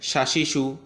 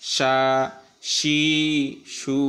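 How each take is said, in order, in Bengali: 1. ধ্বনিগুলো দ্রুত ও ছোট করে বলা হয়। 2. প্রতিটি স্বরধ্বনি লম্বা করে টেনে বলা হয়। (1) "দ্রুত পড়েন" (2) "তিন লেফ টান"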